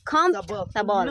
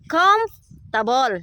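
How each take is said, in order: First: It is said with a Visayan-accented pronunciation. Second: It is said with standard English pronunciation. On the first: The speaker calls it wrong. "Imuha kay comfortable man Bisaya man kayo" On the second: The speaker calls it right. "Ang pag-pronounce ana comfortable"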